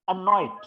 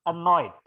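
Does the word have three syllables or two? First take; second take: two; two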